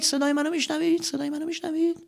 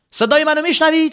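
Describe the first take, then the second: First: Fading, ever softer echo; fading cave echo. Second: High loud call into a cave. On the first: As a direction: let the question echo away. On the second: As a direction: shout the question into the dark. Calling out in cave. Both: Acted.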